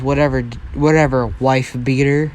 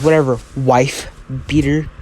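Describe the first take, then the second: First: Said in the usual way. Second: Understated dismissive sneer. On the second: Acted. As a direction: toss it off with light contempt. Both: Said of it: "sends him with a sneer".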